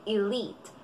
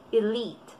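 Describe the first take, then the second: Both takes have the same delivery.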